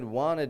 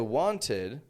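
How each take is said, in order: First: The T sound is dropped. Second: The T sound is pronounced clearly. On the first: The speaker calls it right. "I said wanted man" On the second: The speaker calls it wrong. "I didn't say wanted"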